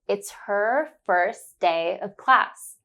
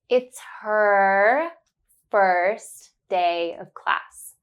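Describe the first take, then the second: First: It is said at normal speed. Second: It is said slowly and carefully.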